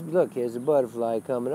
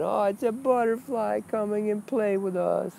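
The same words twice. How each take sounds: First: Said in the usual way. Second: Much higher, airy mock-naive voice; dreamy spiritual innocent. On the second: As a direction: play a wide-eyed seeker marveling at a butterfly. Mocking a naive spiritual seeker.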